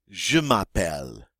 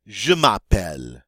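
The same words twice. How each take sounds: First: "Je m'appelle" repeated at normal level, je stressed; softer repeat. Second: "Je m'appelle" stressed on je, louder, falling; French model phrase. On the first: Teacher repeating the phrase gently for learners. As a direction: echo "Je m'appelle" more softly. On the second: Teacher introducing the phrase, louder French model. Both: Shown as a demonstration. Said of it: "it means my name is".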